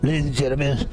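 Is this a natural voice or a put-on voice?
natural. It is said in a natural everyday voice.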